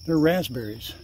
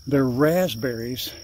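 First: Said in the usual way. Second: "raspberries" slowed right down and leaned on; emphatic correction. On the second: Real, not acted. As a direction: spell out "They're raspberries" slowly to correct the mistake. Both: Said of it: "They're not blackberries".

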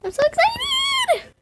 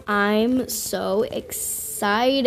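First: Very high squeal; squealing excitement. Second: Very slow, softer deadpan; mock calm. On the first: Pretend. Gamer squealing before the pet hatches, very high squeal. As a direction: squeal it like a thrilled little girl. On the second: Gamer pretending to stay calm, slow deadpan. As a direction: drag it out flat and quiet. Waiting for the pet to hatch.

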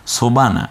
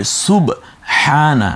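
First: সোবানা with an o and no h sound; wrong pronunciation. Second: সুবহানা slow, with a clear u and breathy h; correct pronunciation. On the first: Teacher shows the wrong form to pupils, careless. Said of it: "না, না, সোবানা". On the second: Teacher models the correct form for pupils, slowly. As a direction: draw out সুবহানা slowly, every sound clear. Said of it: "শুদ্ধ রূপে বলো". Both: Shown as a demonstration.

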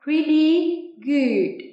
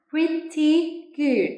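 First: "Pretty good" slow and loud, the t of "Pretty" softened to a d; slow American model, "Pretty" with a d-like middle; American pronunciation. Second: "Pretty good" slowly, with a crisp t in "Pretty"; slow British model, sounding the t of "Pretty" fully; British pronunciation. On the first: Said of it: "Tiếng Anh Mỹ nào?". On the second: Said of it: "tiếng Anh Anh, các bạn phát âm". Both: Shown as a demonstration.

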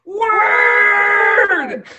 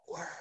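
First: Long, high full-voiced shout; shout to the hilltops. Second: Hushed whispered demo. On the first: Showing listeners the shout step, shouted long and high. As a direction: holler it out to the hilltops. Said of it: "shout it to the hilltops". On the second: Showing listeners the whisper step, whispered. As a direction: whisper the single word softly. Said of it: "And then whisper". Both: Shown as a demonstration.

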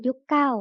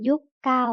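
First: Said in the usual way. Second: ยุคเก่า sounded out syllable by syllable; reading pronunciation. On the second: Shown as a demonstration. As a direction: read ยุคเก่า with a gap between yuk and kao. (อ่าน ยุคเก่า แยกทีละพยางค์) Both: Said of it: "อ่านว่า".

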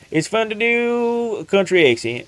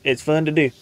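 First: A hint of a Southern country accent. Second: Said in the usual way. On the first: Shown as a demonstration.

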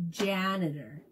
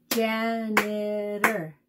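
First: Said in the usual way. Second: "Janitor" in slow, drawn-out syllables. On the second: Shown as a demonstration. Teacher showing kids how to count syllables, "Janitor" slowly syllable by syllable. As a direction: clap out "Janitor" slowly, each syllable separate. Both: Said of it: "fun to clap out the syllables".

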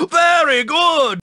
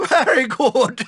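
First: Said in the usual way. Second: "Very good!" said through a laugh; laughing praise. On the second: Acted. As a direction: chuckle your way through "Very good!".

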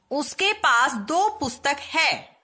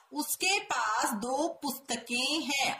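First: उसके पास दो पुस्तक है read slowly and louder, every word spaced; slow emphatic reading. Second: Slow careful reading. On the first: Teacher reading the wrong sentence slowly and loudly to students. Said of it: "reads wrong sentence aloud". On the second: Teacher reading the correct sentence slowly to students. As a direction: read the corrected sentence gently, word by word. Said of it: "सही वाक्य बनेगा". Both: Shown as a demonstration.

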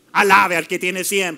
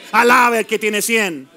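First: Said in the usual way. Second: Louder repeat. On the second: Shown as a demonstration. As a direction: repeat Alabe al que tiene cien louder and slower. (repetición más fuerte y lenta)

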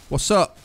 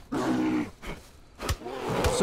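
First: Said in the usual way. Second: Mock deep voice. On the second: Taunting the bear.

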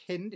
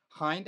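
First: "Hind" with a short i, as in "hint"; short-i pronunciation. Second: "Hind" with a long i, rhyming with "kind"; long-i pronunciation. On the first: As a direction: say "Hind" to rhyme with "wind" that blows. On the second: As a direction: say "Hind" like "hined", vowel as in "eye". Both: Shown as a demonstration. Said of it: "Is that how you pronounce it?".

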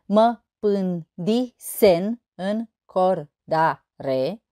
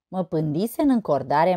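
First: Slow, evenly spaced syllables. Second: Said in the usual way. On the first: Shown as a demonstration. Teacher showing eight syllables in a verse, syllable by syllable. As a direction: sound out one syllable at a time. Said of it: "opt silabe". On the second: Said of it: "O altă poezie".

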